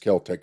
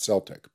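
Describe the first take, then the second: First: It begins with a hard K sound. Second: It begins with a soft S sound. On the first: The speaker calls it right. "there's no soft C in the Gaelic language. That's why it's Celtic" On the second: The speaker calls it wrong. "not Celtic"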